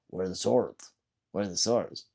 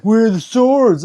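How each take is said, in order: First: Low, soft mimicked question; subdued retold question. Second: Loud, high, drawn-out mock demand; mock troll demand. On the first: Streamer retells the troll's question, quiet and low. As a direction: quote the troll under your breath. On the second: Streamer mimics a troll demanding swords, loud mock yell. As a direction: imitate a troll calling out loudly.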